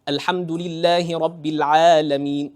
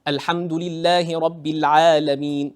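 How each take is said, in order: No difference in how they are said.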